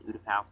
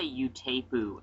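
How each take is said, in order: First: Utapau said "OO-tuh-pow"; corrected pronunciation. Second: Utapu said "yoo-TAY-poo"; old mispronunciation. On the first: Host gives the corrected name, Utapau as "OO-tuh-pow". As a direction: end Utapau on "pow", starting with "oo". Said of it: "I found out it's Utapau". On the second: Host admits an old mistake, Utapu as "yoo-TAY-poo". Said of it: "I used to say Utapu". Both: Shown as a demonstration.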